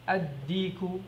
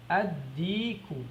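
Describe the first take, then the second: First: Said in the usual way. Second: "Ad-diku" stretched out slowly, the d doubled; slow teacher repetition of "Ad-diku"; slow demo. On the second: Shown as a demonstration. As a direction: model "Ad-diku" very slowly for learners. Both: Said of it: "How do you say the rooster?".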